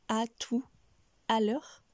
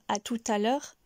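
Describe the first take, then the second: First: The T of tout is silent, with no linking. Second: The T of tout links to the next vowel. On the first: The speaker calls it wrong. "et non à tout à l'heure" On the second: The speaker calls it right. "on va dire à tout à l'heure"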